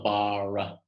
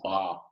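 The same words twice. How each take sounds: First: The R is rolled. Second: The R is not rolled. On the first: The speaker calls it wrong. "It's not bar" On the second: The speaker calls it right. "it's just bar. So no rolling R's there"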